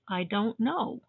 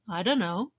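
First: Each word is pronounced fully and distinctly. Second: The words run together in a reduced form. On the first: "Clear pronunciation is" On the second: "Relaxed pronunciation begins to sound like"

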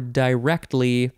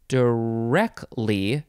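First: The T sound in the middle is pronounced. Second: The T sound in the middle is dropped.

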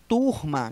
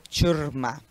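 First: The word begins with a plain t sound. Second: The word begins with a ch sound. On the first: It is the standard word for a group. "o vocábulo turma" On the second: It is a slang form of the word. "Tchurma é quando eu utilizo a utilização desse som, do tchã"

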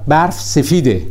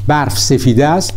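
First: The verb is reduced to a final 'e' vowel. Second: The verb is said in full as 'ast'.

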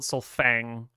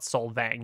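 First: The middle consonant is an f sound. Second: The middle consonant is a v sound. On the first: This is what the elves call it. "the elves would call it Solfang" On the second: This is what the humans call it. "they'll call it Solvang"

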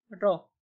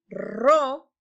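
First: The r is soft and not rolled. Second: The r is strong and rolled. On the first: The speaker calls it right. "es ro, ... no se escucha muy fuerte" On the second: The speaker calls it wrong. "no es ro"

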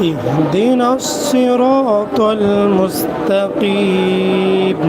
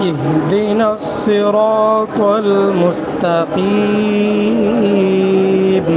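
No difference in how they are said.

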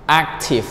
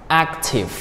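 The two takes are said the same way.

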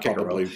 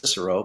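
First: The name is said the Latin way. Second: The name is said the common everyday way. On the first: The speaker calls it right. "but in Latin it should be Cicero" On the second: The speaker calls it wrong. "Everybody says Cicero"

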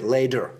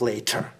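First: It is said the way Americans sometimes say it. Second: It is said the standard, careful way. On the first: "sometimes Americans say later" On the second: "instead of later"

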